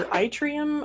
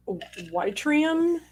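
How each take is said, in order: First: "yttrium" said EYE-tree-um, pitched high; alternative pronunciation. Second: "yttrium" said WHY-tree-um, slow and rising in pitch; unsure pronunciation. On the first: Host retrying a hard word, "yttrium" as EYE-tree-um. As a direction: start "yttrium" with an "eye" sound, no W. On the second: Host reading quiz options, unsure "yttrium" as WHY-tree-um. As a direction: start "yttrium" with a "why" sound, tentatively. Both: Real, not acted. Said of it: "I don't know how to pronounce it".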